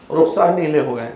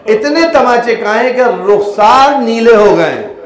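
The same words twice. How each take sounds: First: Said in the usual way. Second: Louder and higher, slow, leaning on Rukhsar; emphatic slow lament. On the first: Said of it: "repeated softly". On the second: Acted. Preacher stirring mourners over the slapped child, emphatic. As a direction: drag out رخسار نیلے ہو گئے with rising grief. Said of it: "repeated for emphasis".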